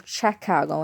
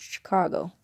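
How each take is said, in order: First: "Chicago" said as "SHACK-ah-go"; others' pronunciation. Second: Said in the usual way. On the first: Shown as a demonstration. Quoting outsiders on the city, "Chicago" mispronounced as "shack-ah-go". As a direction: open the first syllable of "Chicago" to "shack". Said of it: "Some people say". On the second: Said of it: "No, it's Chicago".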